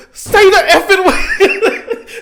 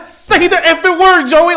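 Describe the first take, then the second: First: Much higher, louder, slow and laughing; half-laughing angry shout at the screen; mad yell. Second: Higher and louder, punching it out; loud heated demand at Joey; furious yell. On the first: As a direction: drag out a furious laughing demand at the TV. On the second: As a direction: yell at the cartoon like a frustrated fan. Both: Retold or imitated. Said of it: "Like, I was so mad".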